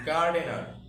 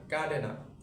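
First: "গার্ডেনার" as gar-de-nar, both r's sounded; R pronounced. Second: "গার্ডেনার" as ga-de-na, no r anywhere; silent R. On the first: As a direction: hit "গার্ডেনার" with audible r's. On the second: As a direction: drop both r's in "গার্ডেনার". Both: Shown as a demonstration. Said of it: "আর উচ্চারণ তো আমরা এখানে বাদ দিই".

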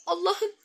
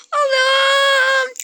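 First: Said in the usual way. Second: High, loud, tearful "Allah'ım"; weeping with relief; tearful joy. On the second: Real, not acted. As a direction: cry out in happy tears. Overjoyed at the good news.

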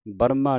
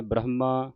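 First: ਬਰਮਾ with the h sound dropped; ਬਰਮਾ, h swallowed; wrong pronunciation. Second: ਬ੍ਰਹਮਾ with the h sound clearly heard; ਬ੍ਰਹਮਾ as bra-h-ma, keep the h; correct pronunciation. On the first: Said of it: "ਬਰਮਾ ਨਹੀਂ ਕਹਿ ਦੇਣਾ". (ਗਲਤ ਉਚਾਰਨ ਬਰਮਾ, ਹਾਹਾ ਕੱਟਿਆ) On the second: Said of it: "ਹਾਹੇ ਦੀ ਆਵਾਜ਼ ਉਚਾਰਨ ਹੋਵੇ". (ਸਹੀ ਉਚਾਰਨ ਬ੍ਰਹਮਾ, ਹਾਹੇ ਦੀ ਆਵਾਜ਼ ਨਾਲ) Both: Shown as a demonstration.

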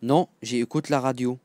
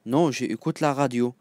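No difference in how they are said.

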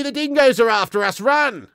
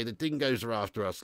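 First: High, loud hammed-up Aussie yell to flee; mock panicked shout. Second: Said in the usual way. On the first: Joking to the German Aussie viewer, mock panicked Aussie shout. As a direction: shout the warning and bolt.

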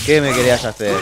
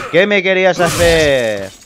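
First: Said in the usual way. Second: Loud, slow, higher taunt; drawn-out taunting shout. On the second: Real, not acted. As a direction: stretch the taunt out loudly. Taunt repeated louder, drawn out.

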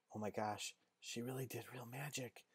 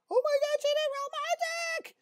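First: Very soft, near-whispered amazement; hushed awe. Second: Very high falsetto shriek; panicked girl squeal. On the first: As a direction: confide it to a friend under your breath. Girls murmur to each other, awed. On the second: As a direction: squeal it like a startled girl running off. Girls bolt, squealing. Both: Acted.

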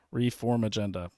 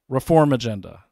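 First: Said in the usual way. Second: Reform agenda called out louder, like a headline; announcing. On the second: Acted. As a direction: announce "Reform agenda" loudly like a big reveal. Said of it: "Ready? You can love this".

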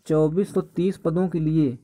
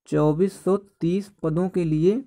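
No difference in how they are said.

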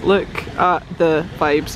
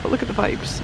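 First: LOOK, AT, THE, VIBES word by word; slow right down, stressing every word; slow, deliberate savouring of each word; slow emphasis. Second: Said in the usual way. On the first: Real, not acted. Repeats it slower for effect.

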